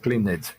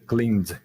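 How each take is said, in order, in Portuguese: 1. O sufixo acrescenta uma sílaba extra com vogal. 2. O sufixo é um som simples de D, uma sílaba só. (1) "não" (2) "o E D entra com som de D"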